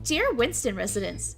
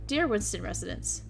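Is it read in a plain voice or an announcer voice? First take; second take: announcer; plain. First: It is read in a formal announcer voice. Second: It is read in a plain, ordinary voice.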